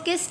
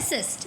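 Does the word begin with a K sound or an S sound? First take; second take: K sound; S sound. First: The word begins with a K sound. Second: The word begins with an S sound. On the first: The speaker calls it wrong. "इसको किस्ट नहीं कहते" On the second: The speaker calls it right. "इसको सिस्ट कहते हैं"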